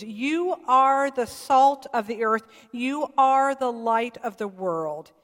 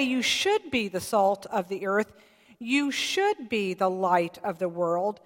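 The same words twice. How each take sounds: First: "You are the salt of the earth", weight on "are"; stress on are. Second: "should" pushed up as the wrong reading; stress on should. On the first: Preacher pressing the congregation: firm weight on "are". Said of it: "I really want you to listen to these words". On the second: Preacher showing what the verse doesn't say: "should" stressed. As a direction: lean on "should" to show the misreading. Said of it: "It doesn't say". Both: Shown as a demonstration.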